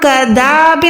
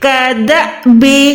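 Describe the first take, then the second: First: The middle vowel is drawn out long. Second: The middle vowel is cut by a glottal catch. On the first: The speaker calls it wrong. "यहाँ पर हम कदाबे नहीं पढ़ सकते" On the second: The speaker calls it right. "अलिफ को हम लंबा नहीं करते बल्कि हम अलिफ को झटका लगा के पढ़ते हैं"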